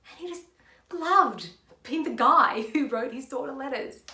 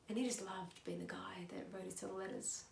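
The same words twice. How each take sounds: First: Emphatic delivery. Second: Very soft, almost whispered aside; hushed delivery. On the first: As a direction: belt out LOVED, letting a laugh in. Same monologue, projected second take. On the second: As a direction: drop it right down to a murmur. Same monologue, subdued first take. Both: Shown as a demonstration.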